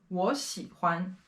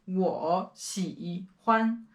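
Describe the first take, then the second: First: 我 said with a rising second tone; 我喜欢 with 我 rising, the right way. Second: 我喜欢 with 我 in the full third tone, the wrong way. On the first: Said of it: "Second tone". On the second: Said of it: "we're not saying". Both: Shown as a demonstration.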